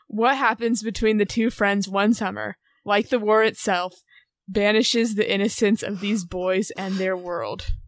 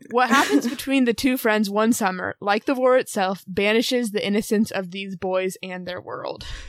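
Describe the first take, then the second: First: The voice rises at the end like a question. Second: The voice falls at the end like a statement.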